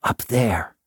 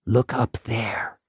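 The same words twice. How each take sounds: First: Said in the usual way. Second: Breathy whisper. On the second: Acted. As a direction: whisper it like a secret. Janitor repeats, whispered.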